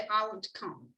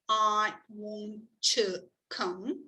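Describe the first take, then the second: First: The t sounds of 'want to' are linked. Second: The t of 'to' is said separately. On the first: The speaker calls it right. "you say ... you are linking words with the same consonant sound" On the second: The speaker calls it wrong. "you don't say"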